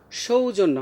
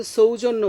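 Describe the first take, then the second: First: সৌজন্য starting with a sh, shou-jonno; correct pronunciation. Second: সৌজন্য starting with a dental s, sou-jonno; wrong pronunciation. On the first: Teacher models the spoken form, initial sh sound. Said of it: "আমরা উচ্চারণ করি তালব্য স". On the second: Teacher shows what we don't say, dental s. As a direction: hiss a plain s at the start of সৌজন্য. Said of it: "আমরা কিন্তু সৌজন্য বলি না". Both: Shown as a demonstration.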